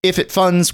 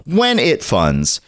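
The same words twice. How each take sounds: First: Said in the usual way. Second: When drawn out slowly and firmly; stress on when. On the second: Shown as a demonstration. Host corrects if to when, stressing it. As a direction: lean hard on "When", slow and sure. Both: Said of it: "Let's be optimistic".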